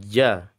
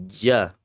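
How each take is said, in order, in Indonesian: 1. Konsonannya bunyi j. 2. Konsonannya bunyi j.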